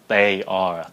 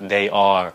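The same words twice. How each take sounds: First: The first sound of 'they' sounds like a T. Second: The first sound of 'they' sounds like a D. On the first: The speaker calls it right. "các bạn nói là" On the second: The speaker calls it wrong. "Đừng có nói là"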